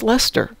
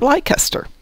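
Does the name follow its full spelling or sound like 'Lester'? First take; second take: Lester; full spelling. First: The name is said short, like 'Lester'. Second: The name is sounded out following its full spelling. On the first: The speaker calls it right. "somebody said it's pronounced Lester" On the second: The speaker calls it wrong. "being from Chicago, we pronounced it Leicester"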